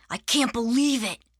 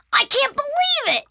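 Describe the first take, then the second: First: Understated, downbeat "can't believe it"; said with little lift, falling at the end; a touch of dejection; subdued disbelief. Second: Very high, loud squeal; overjoyed disbelief. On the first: Arthur dejected on last morning. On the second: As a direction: shout it in pure delight. Arthur overjoyed by reward. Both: Acted.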